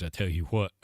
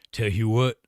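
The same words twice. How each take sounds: First: Said in the usual way. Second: A lightly put-on character voice; put-on catchphrase voice. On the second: Shown as a demonstration. Chat told him to say it that way, a light put-on voice. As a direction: toss off the catchphrase in a borrowed voice. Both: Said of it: "You gotta say it like that".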